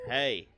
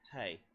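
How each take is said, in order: First: It is said in a dominating, talking-down manner. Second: It is said levelly and directly, as to an equal. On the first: The speaker talks down to the listener. The speaker calls it wrong. "That's dominating and stupid" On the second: The speaker treats the listener as an equal. The speaker calls it right. "I just talked straight to her"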